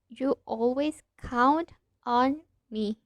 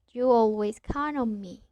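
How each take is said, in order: First: Count and on are said as separate words. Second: Count and on run together as one word. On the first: "Instead of" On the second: "we are joining these two words"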